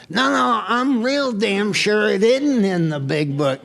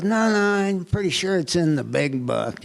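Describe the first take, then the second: First: Stubbornly outshout her in the argument; insistent retort. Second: Said in the usual way. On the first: Retold or imitated. Retold argument with wife, insisting.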